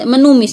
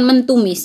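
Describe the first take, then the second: First: No t sound is heard after the n. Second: A t sound is heard after the n. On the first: The speaker calls it right. "menumis bukan mentumis" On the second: The speaker calls it wrong. "bukan mentumis"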